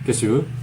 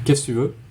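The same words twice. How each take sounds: First: The word que before tu is dropped. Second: The same.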